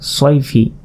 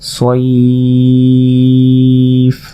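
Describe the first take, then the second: First: It runs on, ending with a vowel. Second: It stops, stretched, ending on a bare consonant. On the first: The reading continues without stopping. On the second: The reader stops at this word.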